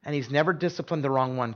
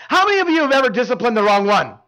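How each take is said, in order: First: Quiet, earnest reassurance; sincere and soft. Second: Louder, teasing punchline question; joking punchline. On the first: Real, not acted. Pastor reassuring the congregation about God, soft and sincere. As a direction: drop the joke and say it gently. Turn from joke to truth. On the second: Retold or imitated. Pastor joking to the dads in church, teasing and louder. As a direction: land the joke on the dads with a grin. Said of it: "then I'll joke".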